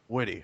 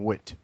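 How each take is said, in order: First: The name is said with two syllables. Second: The name is said with one syllable. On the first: The speaker calls it right. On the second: The speaker calls it wrong.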